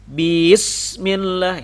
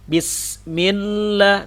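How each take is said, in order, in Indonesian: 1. Vokal pertama dibaca panjang. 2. Vokal pertama pendek.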